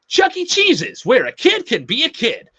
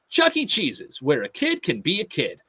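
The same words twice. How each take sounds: First: It is said bigger, with high energy. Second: It is said with modest, normal energy.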